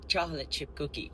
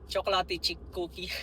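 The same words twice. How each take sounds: First: It is said with a plain standard accent. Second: It is said with a heavy foreign accent. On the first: The speaker calls it right. "It's supposed to be chocolate chip cookie" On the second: The speaker calls it wrong. "accent ko"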